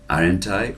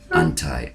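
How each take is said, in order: First: Two words are said fully and separately. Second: The two words blend into one reduced word. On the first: "you can say aren't I" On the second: "that is a, a pronunciation for uh, for uh, aren't I"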